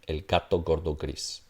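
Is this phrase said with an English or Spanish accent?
English. The g sounds are hard, English-like stops. The speaker calls it wrong.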